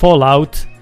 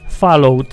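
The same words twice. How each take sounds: First: The second syllable sounds like 'out'. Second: The second syllable does not sound like 'out'. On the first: The speaker calls it right. "To są dwa słowa. Fall out" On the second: The speaker calls it wrong. "jak ktoś mówi Fallout"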